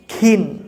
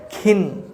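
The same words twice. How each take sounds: The two takes are said the same way.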